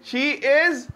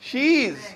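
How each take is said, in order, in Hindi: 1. इसे दो अलग-अलग पूरे शब्दों की तरह बोला जाता है। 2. इसे एक जुड़ा हुआ, संकुचित शब्द की तरह बोला जाता है।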